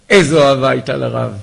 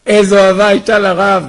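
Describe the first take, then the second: First: Said in the usual way. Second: Higher and louder, full of feeling; קריאה נרגשת ורמה; emphatic repeat. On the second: Shown as a demonstration. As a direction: cry it out the second time with awe.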